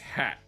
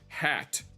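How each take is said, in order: First: The word ends with a glottal stop. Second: The word ends with a clear t sound.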